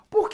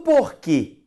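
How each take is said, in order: First: The word que is weak and unstressed. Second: The word que is strong and stressed. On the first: It opens a question. "Perceba que o que fica mais fraco" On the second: It ends a question. "Perceba que fica mais forte"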